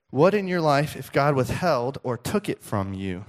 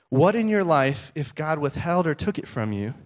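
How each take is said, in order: Both takes have the same delivery.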